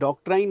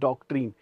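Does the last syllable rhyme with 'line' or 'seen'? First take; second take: line; seen. First: The last syllable rhymes with 'line'. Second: The last syllable rhymes with 'seen'. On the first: The speaker calls it wrong. "बहुत से लोग बोलते हैं डॉक्ट्राइन भाई ये डॉक्ट्राइन नहीं है" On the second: The speaker calls it right. "This is डॉक्ट्रीन"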